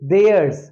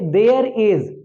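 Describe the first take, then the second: First: It is said as one contracted syllable. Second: It is said as two full words.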